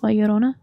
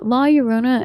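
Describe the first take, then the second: First: The name is said with Spanish sounds. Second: The name is said with English sounds.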